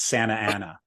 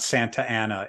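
First: The t is dropped. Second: The t is clearly pronounced. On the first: It is how locals say the name. The speaker calls it right. "there are no T's either" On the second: It is how outsiders say the name. The speaker calls it wrong. "It's not Santa Ana"

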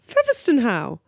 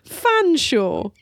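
First: It is said as four syllables, featherston-how. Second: It is said as two syllables, fan-shaw. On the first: This is how the spelling reads letter by letter. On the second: This is how the name is actually said.

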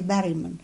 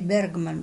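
First: The name is pronounced the speaker's local way. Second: The name is pronounced the American way. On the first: "but we say Berryman" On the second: "They Americans say Bergman"

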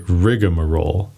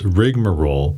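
First: It is said with an extra 'a' after 'rig'. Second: It is said with three syllables, no extra vowel. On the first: "people often throw in an additional A in there" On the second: "its dictionary pronunciation is rigmarole"

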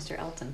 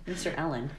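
First: The T sound in the name is pronounced. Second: The T sound in the name is dropped.

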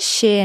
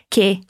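First: The word starts with an sh sound. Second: The word starts with a k sound. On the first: The speaker calls it wrong. "que em português seria che" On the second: The speaker calls it right. "em italiano o som do CHE é que"

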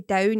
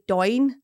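First: The vowel sounds like ow. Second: The vowel sounds like oi. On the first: "you don't say down" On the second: "you say doin"

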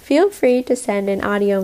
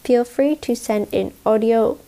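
First: It is spoken in the speaker's usual accent. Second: It is spoken in a British accent.

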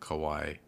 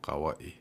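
First: The name is said in an anglicized way. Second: The name is said in the Hawaiian way. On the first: This is the form the family used before. "instead of" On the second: This is the form the family has shifted to. "since we've pronounced them properly"

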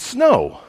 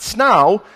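First: The vowel rhymes with the word no. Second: The vowel rhymes with the word now. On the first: The speaker calls it right. "it's snow" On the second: The speaker calls it wrong. "it's not snow"

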